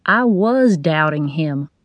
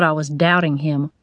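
First: Slow, with "was" leaned on as an admission; stress on WAS. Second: Said in the usual way. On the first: A narrator's reading. Janitor admits he doubted the patient, stressing "was". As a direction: lean hard on "was" in "I was doubting him".

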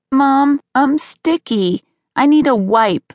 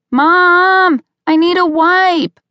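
First: Put-on high, drawn-out kid's call from another room; little boy calling out. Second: High, loud whining holler for mom; child's insistent yell. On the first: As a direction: call for mom like a sticky little kid. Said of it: "Brody called from the couch". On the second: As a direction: yell for mom like an impatient little boy. Boy calls again, louder. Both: A narrator's reading.

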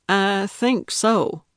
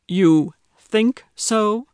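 First: Said in the usual way. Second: Higher, louder, slow disbelieving echo; incredulous echo. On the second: Acted. Grumpy neighbor echoing her doubt, slow and incredulous. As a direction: stretch it out in open disbelief.

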